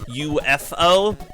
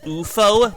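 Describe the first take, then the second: First: It is said as three separate letters. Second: It is said as one word, like Bufo. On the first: "technically U F O" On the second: "I pronounced it as U F O ... reminds me of Bufo"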